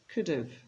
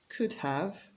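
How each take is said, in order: First: The two words blend, with 'have' reduced. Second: Both words are said fully and separately.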